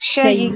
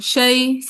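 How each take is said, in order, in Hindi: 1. अंतिम ध्वनि में एक हल्का, छोटा स्वर होता है। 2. अंतिम ध्वनि के बाद कोई स्वर नहीं आता, वह सीधे रुक जाती है। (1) "दोबारा करें, रोम।" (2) "करें दोबारा वक्फ बिल इस्कान"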